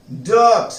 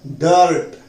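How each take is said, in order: First: डर्ट said dət, r silent; correct pronunciation. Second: डर्ट read ɖərʈ with the r sounded; the usual reading of डर्ट, r pronounced; wrong Hindi reading. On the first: Teacher modelling the r-silent word for the class. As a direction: say डर्ट with no r sound. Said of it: "आर silent है". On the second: Teacher imitating students' wrong reading. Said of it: "डर्ट नहीं होता". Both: Shown as a demonstration.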